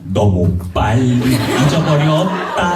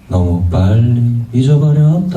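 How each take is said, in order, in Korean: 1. 각 음절이 또렷하고 분명하게 발음돼요. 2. 각 음절이 느슨하고 편하게 이어져서 발음돼요. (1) "되게 또박또박 발음을 하거든요" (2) "요새는"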